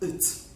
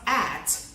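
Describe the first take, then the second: First: The word has a reduced weak vowel. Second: The word has a full vowel. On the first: The speaker calls it right. "the AT is said in its weak form" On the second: The speaker calls it wrong. "not at"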